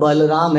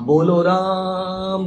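First: The name begins with an open 'ba' sound. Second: The name begins with a rounded 'bo' sound. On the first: The speaker calls it right. "बोलो राम नहीं है, वो बलराम है" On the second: The speaker calls it wrong. "Bengali naturally बोलो राम बोलते हैं"

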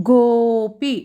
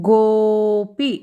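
The two takes are said the same way.

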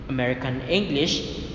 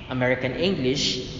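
Both takes have the same delivery.

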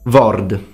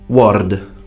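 First: The word begins with a V sound. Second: The word begins with a W sound.

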